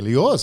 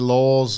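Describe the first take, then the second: First: The word is said as two syllables. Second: The word is said as one syllable. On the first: "You can add a syllable if you want" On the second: "you can say laws"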